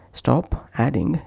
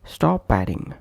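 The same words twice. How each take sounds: First: "Stop adding" with a break after p; separate words. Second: "stop adding" run together as sto-padding; consonant linked to vowel. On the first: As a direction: keep "Stop" apart from "adding". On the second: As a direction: push the p onto "adding". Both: Shown as a demonstration. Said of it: "is pronounced as".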